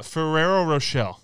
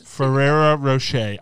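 First: Rocher said as "ro-SHELL", with an L; mispronounced Rocher. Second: Rocher said as "ro-SHAY", no L, slow and loud; corrected Rocher. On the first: Real, not acted. Host unsure of the candy's name, Rocher mispronounced "ro-SHELL". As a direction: sound an L at the end of Rocher. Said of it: "you're saying Rochelle". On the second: Shown as a demonstration. Host correcting herself after hearing it, Rocher pronounced "ro-SHAY". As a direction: say Rocher deliberately, ending in "shay". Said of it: "I'm sorry that I pronounced the L".

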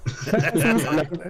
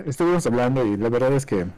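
First: Giggling through the words; words breaking into laughter; laughing. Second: Said in the usual way. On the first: Real, not acted. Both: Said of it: "¿Por qué te ríes".

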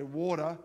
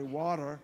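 First: Said in the usual way. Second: Low-pitched American WATER; best American accent. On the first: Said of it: "through a drive-through and I say". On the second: Shown as a demonstration. Foreigner proving he can say it, attempted American accent. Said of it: "my best American is".

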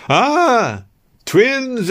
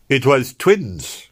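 First: Much higher, delighted matronly squeal; thrilled old nurse crying out in joy. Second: Slow, calm and steady; saving the day with a cool calm line; calmly. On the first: Nurse delighted at hearing of twins, high delighted exclaim. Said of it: "exclaimed the nurse". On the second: Narrator calmly saving the situation for Yvonne, slow calm voice. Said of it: "I said calmly". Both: A narrator's reading.

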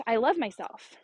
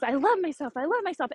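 First: Said in the usual way. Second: Quick, higher-pitched repeated chant; lightly acted childlike insistence; imitating eager daughter. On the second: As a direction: mimic a small child eagerly repeating an affirmation. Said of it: "she says it until she's out of breath".

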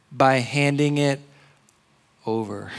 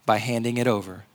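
First: Stretched emphatic phrasing with a pause before "over". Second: Said in the usual way. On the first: Shown as a demonstration. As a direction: let "over" land after a beat.

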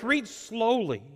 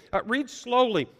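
First: "read slowly" drawn out at a slow, deliberate pace. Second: Said in the usual way. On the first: Shown as a demonstration. Preacher giving a reading rule to the congregation, drawn out slowly. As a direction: stretch "read slowly" out, unhurried.

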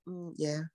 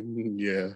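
First: Quiet, flat mumbled yeah; low-energy mumble. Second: Soft mumbled yeah, no energy; low-energy mumble. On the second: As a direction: mumble it quietly, half asleep. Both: Retold or imitated. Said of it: "you said it like you was about to fall out laughing".

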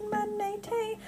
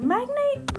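First: "Magnate" as three syllables, mag-NAY-tay, high and soft; trying a pronunciation. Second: "Magnate" as two syllables, MAG-nayt, high and questioning; trying a pronunciation. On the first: Puzzling over an unfamiliar name, "Magnate" said mag-NAY-tay. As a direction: try "Magnate" with a final tay. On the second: Puzzling over an unfamiliar name, "Magnate" said MAG-nayt. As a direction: try "Magnate" ending in a hard t. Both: Shown as a demonstration. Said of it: "How do you pronounce that?".

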